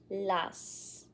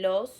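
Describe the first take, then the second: First: The vowel is an open ah sound. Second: The vowel is a pure, rounded oh sound. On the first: The speaker calls it wrong. "the majority was using an a" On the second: The speaker calls it right. "instead of saying los"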